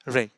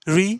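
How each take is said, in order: First: The vowel is a short 'eh' sound. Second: The vowel is a long 'ee' sound. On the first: The speaker calls it right. "ये ई नहीं है, ये ए है।" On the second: The speaker calls it wrong. "री नहीं"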